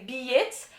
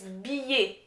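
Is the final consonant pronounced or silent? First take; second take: pronounced; silent. First: The final consonant is pronounced. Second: The final consonant is silent. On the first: The speaker calls it wrong. "Anglophones would say billet" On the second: The speaker calls it right. "You don't pronounce the consonant"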